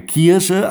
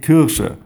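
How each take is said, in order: First: Kirche with a throaty vowel, drawn out slowly; Westphalian Kirche. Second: Kirsche with the r rolled back and a sch sound; wrong Kirsche. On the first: Showing listeners how he says Kirche, slow and throaty. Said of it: "Ich sage Kirche". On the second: Setting Kirsche against Kirche for his listeners, clearly stressed. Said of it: "ich sage nicht Kirsche". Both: Shown as a demonstration.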